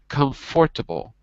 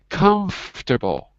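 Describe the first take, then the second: First: Every syllable of the word is pronounced. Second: One middle syllable of the word is dropped. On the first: The speaker calls it wrong. "not comfortable" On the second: The speaker calls it right. "Just like we say comfortable"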